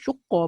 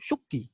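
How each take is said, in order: First: The word ends with an a vowel. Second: The word ends with an i vowel. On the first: "Baca baris atas pun betul" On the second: "Baca baris bawah pun betul"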